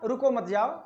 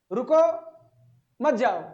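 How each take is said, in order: First: "रुको मत जाओ" in one breath, no break after रुको; run together. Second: "रुको", long pause, then "मत जाओ"; pause after रुको. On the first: Teacher showing how guests misheard it, "रुको मत जाओ" run together. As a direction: blur it so it sounds like don't stay, go. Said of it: "लेकिन उनके समझ में क्या आया". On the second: Teacher voicing a host asking guests to stay, pause after रुको. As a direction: break clearly after रुको so it means stay, don't go. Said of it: "और उनको समझ में आया क्या? रुको मत जाओ।". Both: Shown as a demonstration.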